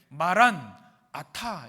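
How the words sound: It is split into two parts with a break.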